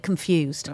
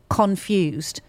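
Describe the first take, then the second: First: The stress is on the second syllable. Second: The stress is on the first syllable. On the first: "the American emphasis was on the fused" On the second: "my emphasis was on the con"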